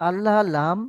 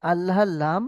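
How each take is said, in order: Both takes have the same delivery.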